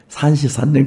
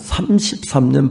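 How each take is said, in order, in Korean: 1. 자음이 혀 짧은 소리처럼 뭉개져서 나와요. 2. 자음이 또박또박 분명하게 발음돼요.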